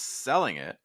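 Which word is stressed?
selling. The stress falls on selling. The speaker calls it right. "I would weaken it a lot"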